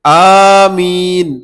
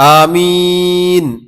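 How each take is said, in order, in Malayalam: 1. ആദ്യ സ്വരം നീട്ടി ഉച്ചരിക്കുന്നു. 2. ആദ്യ സ്വരം ഹ്രസ്വമായി നിലനിർത്തുന്നു. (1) "അലിഫ് നീട്ടിക്കൊണ്ട്" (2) "അലിഫിന്റെ നീളം കുറച്ചുകൊണ്ട്"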